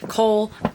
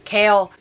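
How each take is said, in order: First: The name rhymes with 'coal'. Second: The name rhymes with 'kale'. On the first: This is how the speaker prefers to say it. "I want to call him Cole" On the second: This is the looked-up pronunciation. "His name is apparently Kale"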